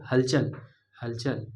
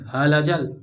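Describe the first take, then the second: First: हलचल with a short ल, run together as हल्चल; right way. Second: हलचल said as ह-ल-चल with the ल stretched; wrong way. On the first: Teacher giving students the correct हलचल, short ल. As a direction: keep the ल in हलचल short and quick. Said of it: "ल को मैंने short रखा". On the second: Teacher demonstrating the wrong हलचल to students, stretched. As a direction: drag the ल in हलचल the way you should not. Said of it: "ऐसा नहीं किया". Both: Shown as a demonstration.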